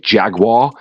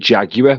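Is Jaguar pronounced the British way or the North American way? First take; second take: North American; British. First: Jaguar is pronounced the North American way. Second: Jaguar is pronounced the British way. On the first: This is how people in North America say it. "What do you guys say?" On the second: This is how people in Britain say it. "over here we say Jaguar"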